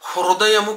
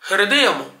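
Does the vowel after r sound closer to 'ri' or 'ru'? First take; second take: ru; ri. First: The vowel after r is a rounded 'ru'. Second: The vowel after r leans toward 'ri'. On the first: The speaker calls it wrong. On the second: The speaker calls it right.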